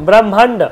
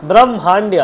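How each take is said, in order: No difference in how they are said.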